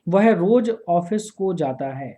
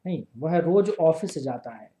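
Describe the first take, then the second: First: वह रोज office को जाता है said slowly, को held up as the mistake; wrong version, slowly. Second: Said in the usual way. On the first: Shown as a demonstration. Teacher reads the incorrect sentence to students, slow and deliberate. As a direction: read the wrong sentence slowly so they hear को.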